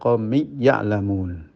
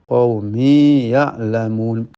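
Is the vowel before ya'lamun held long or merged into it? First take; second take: merged; held long. First: The final vowel is merged into the next word. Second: The final vowel is held long before the next word. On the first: The speaker calls it wrong. "Tidak boleh diidghamkan menjadi" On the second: The speaker calls it right. "Maka harus dibaca"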